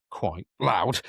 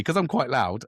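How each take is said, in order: First: Slow, drawn-out "loud"; accentuated LOUD. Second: Said in the usual way. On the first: Shown as a demonstration. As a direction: stretch out "loud" to make the point. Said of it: "accentuate the point there". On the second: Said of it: "I was trying to".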